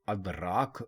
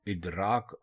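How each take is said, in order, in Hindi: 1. यह शब्द 'a' स्वर से शुरू होता है। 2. यह शब्द 'i' स्वर से शुरू होता है। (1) "अलिफ के ऊपर ज़बर लगाकर बोलेंगे, अदराक बोलेंगे, तो ये गलत होगा" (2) "इदराक दुरुस्त है"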